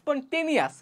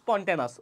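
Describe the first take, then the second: First: The ending is drawn out to follow the spelling. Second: The ending is said in the usual short way. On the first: "যাতে ভুল না হয় এইভাবে বলতাম" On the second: "উচ্চারণ হচ্ছে"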